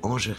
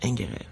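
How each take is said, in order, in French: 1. Le nom se prononce à la française. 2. Le nom se prononce à l'autrichienne. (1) "lorsque j'étais au conservatoire, je m'appelais Angerer" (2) "la véritable prononciation, c'est Angerer"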